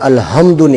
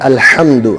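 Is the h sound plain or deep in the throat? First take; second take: plain; throat. First: The h is a plain light breath sound. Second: The h is a strong sound from the throat. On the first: It means death. The speaker calls it wrong. "अगर इसको हा से पढ़ा जाए, जो दो आंखों वाली हा होती है" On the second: It means praise. The speaker calls it right. "हालांकि उसका माना है अल्हम्दु"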